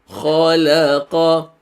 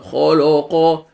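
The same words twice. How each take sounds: First: The l sound is thin and light. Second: The l sound is thick and heavy. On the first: The speaker calls it right. "Lam is a light letter, it's not heavy" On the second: The speaker calls it wrong. "It's not"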